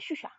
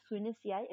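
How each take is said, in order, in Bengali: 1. বাক্যাংশটি চেপে দুটি ছোট সিলেবলে উচ্চারিত হয়। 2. বাক্যাংশটি পুরোপুরি উচ্চারিত হয়, প্রতিটি সিলেবল। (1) "কোপেনহেগেনের মানুষজন এই কথাটাকে ... বলে শুষা" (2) "এখানে লেখা আছে সুইনেসিয়ায়"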